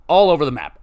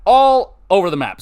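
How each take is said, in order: First: Said in the usual way. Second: "All" stretched out, higher and louder; stress on ALL. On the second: Real, not acted. Podcaster admitting he rambles, stress on "All". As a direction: lean long and loud on "All". Repeats the phrase, leaning on all.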